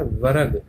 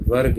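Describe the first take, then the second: First: वर्ग split as va-rag; misspelt reading. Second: Said in the usual way. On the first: Shown as a demonstration. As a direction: add a vowel between र and ग in वर्ग. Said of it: "ये क्या लिखा है". (वर्ग को व-रग पढ़ें) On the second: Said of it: "जबकि होता".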